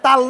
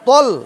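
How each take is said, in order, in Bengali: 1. t-এর পরের স্বরধ্বনিটি একটি খোলা a। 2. t-এর পরের স্বরধ্বনিটি একটি গোলাকার o। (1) "এটা তাল ন"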